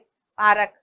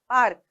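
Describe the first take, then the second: First: The r carries its own vowel, making three syllables. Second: The r joins the k quickly, with no vowel. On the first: The speaker calls it wrong. "हम ये थोड़ी ना बोलेंगे पारक" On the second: The speaker calls it right. "पार्क सही है"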